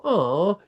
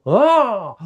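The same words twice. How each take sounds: First: Said in the usual way. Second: High, loud fired-up oh; energized oh. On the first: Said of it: "you don't go". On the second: Shown as a demonstration. Failing but gaining energy, a high loud charged oh. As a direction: react with a jolt of energy. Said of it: "you go".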